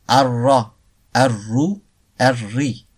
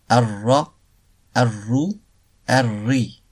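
Both takes have the same delivery.

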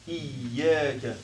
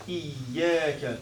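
No difference in how they are said.

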